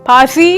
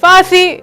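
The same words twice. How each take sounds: First: It starts with an aspirated p sound. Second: It starts with an f sound. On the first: The speaker calls it right. "Is the correct" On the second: The speaker calls it wrong. "Is wrong"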